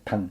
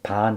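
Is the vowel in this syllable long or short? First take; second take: short; long. First: The vowel is cut short. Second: The vowel is held long. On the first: The speaker calls it right. "좀 짧게 끊어야 되는데" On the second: The speaker calls it wrong. "길게 하면 안 되죠"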